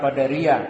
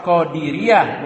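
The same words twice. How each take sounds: First: "Qadariyah" with an a after the d; contrasting Qadariyah. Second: "Qadiriyah" drawn out, with an i after the d; careful Qadiriyah. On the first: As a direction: say "Qadariyah" with "da", falling at the end. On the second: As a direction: say "Qadiriyah" slowly, stressing its "di" sound. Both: Shown as a demonstration. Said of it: "bukan Qadariyah".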